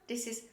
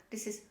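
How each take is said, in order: Both takes have the same delivery.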